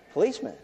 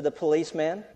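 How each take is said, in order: First: Higher, questioning "Policeman?"; mock a startled boss echoing the word; surprised echo. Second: Said in the usual way. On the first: Boss taken aback by the boy's answer, higher questioning echo. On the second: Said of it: "in a whispered tone".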